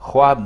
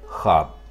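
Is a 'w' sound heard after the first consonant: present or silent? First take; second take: present; silent. First: A 'w' sound is heard after the first consonant. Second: No 'w' sound is heard after the first consonant. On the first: The speaker calls it wrong. "ख्वाब नहीं" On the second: The speaker calls it right. "इसमें वाव खामोश है"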